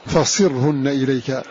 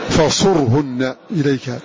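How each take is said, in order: First: The sad is voiced with an i vowel. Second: The sad is voiced with a u vowel. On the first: "بكسر ضم الصاد، وحمزة وحده قرأ" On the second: "وقرأ غيره بضمها، فالباقون"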